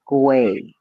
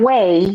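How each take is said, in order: First: The word begins with a G sound. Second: The word begins with a plain W sound. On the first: The speaker calls it right. "güey with the G" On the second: The speaker calls it wrong. "Not way with the W"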